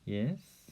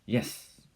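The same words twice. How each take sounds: First: It is said in a soft, cooing, encouraging tone. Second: It is said in a sharp, forbidding tone. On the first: The child is being encouraged. "절반은 yes 이렇게 cooing 하듯이 말을 하고" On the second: The child is being forbidden. "금지하듯이 yes 이렇게"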